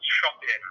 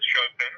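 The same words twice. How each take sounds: First: Shopin said firmly as SHOP-in, like shop in; insistent correction. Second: Chopin said like the composer, SHOH-pan; wrong pronunciation. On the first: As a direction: Shopin with a clear SHOP then in. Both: Shown as a demonstration. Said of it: "Actually, it's pronounced Shopin".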